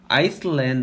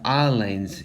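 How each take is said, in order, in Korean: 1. l 앞에 s 소리가 납니다. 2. l 앞에 s 소리가 나지 않습니다. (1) "아이슬란드라고 하면 절대 안 됩니다" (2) "S가 소리 나지 않기 때문에 무음이 됩니다. 그래서 islands 이렇게 해서 발음해야 됩니다"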